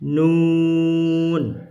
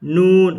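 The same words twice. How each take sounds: First: Nun held long and chanted; Quranic letter recitation. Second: Nun said short, not drawn out; short plain nun. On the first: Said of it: "huruf muqattah bacanya". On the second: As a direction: clip the letter name nun short. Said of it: "nggak baca nun". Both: Shown as a demonstration.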